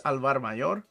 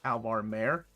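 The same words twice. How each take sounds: First: "Alvar Mayor" with "Mayor" said as two syllables, MAY-or; corrected pronunciation. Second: "Alvar Mare" with "Mare" said as one syllable, rhyming with care; mispronounced name. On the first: Correcting herself on the book title, "Mayor" as MAY-or. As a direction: say "Mayor" like the word for a town's mayor. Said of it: "I assume it's Alvar Mayor". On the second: Owning her earlier slip, "Mare" said as one syllable. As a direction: say "Mare" like a female horse. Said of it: "said that with my American accent". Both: Shown as a demonstration.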